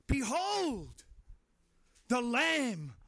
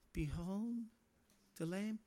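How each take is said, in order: First: It is said with lively enthusiasm. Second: It is said flatly, without enthusiasm. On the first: The speaker calls it right. "he would have said it with enthusiasm" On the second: The speaker calls it wrong. "Was it"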